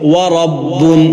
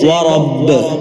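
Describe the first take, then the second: First: The word ends with an n sound. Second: The word ends without an n sound.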